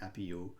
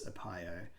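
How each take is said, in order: First: The name is said in its original pronunciation. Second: The name is said as an English reader would. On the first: It is how the name was originally meant to be said. "my original" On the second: It is how an English reader would naturally say it. "how else are you going to pronounce that if you're looking at it with English eyes?"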